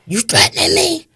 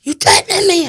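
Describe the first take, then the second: First: High, sharp rising challenge, imitating him; mock indignant killer. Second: Even higher, louder imitation, ending on a falling snap; mock indignant killer, repeated. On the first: Killer confronting the mother at the car window, high mock indignation. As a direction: throw the question back at her with fake outrage. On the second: Killer repeating his challenge at the window, higher and louder in mock outrage. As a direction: press it the second time, daring her. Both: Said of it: "He says to me".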